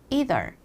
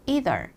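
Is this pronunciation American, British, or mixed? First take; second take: American; American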